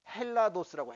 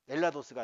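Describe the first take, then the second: First: The word begins with an h sound. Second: The word begins directly with a vowel. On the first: The speaker calls it right. "강기식이 붙어가지고 ... 헬라도스라고 해야 되는데" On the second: The speaker calls it wrong. "엘라도스가 아니라"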